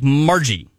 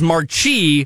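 First: The middle consonant is a 'j' sound. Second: The middle consonant is a 'ch' sound. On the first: This is how the name is reportedly said. "the internet's telling us more like Margie" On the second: This is how the name looks when read. "Which I would pronounce as Marchi"

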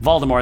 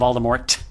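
First: The final T is silent. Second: The final T is sounded.

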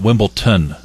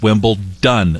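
First: The word is said with a t sound. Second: The word is said with a d sound. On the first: The speaker calls it wrong. "So many people pronounce it Wimbledon a T at the end" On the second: The speaker calls it right. "and it's Wimbledon"

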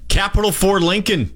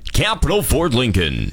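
First: It is said in an ordinary speaking voice. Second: It is said in a put-on deep voice.

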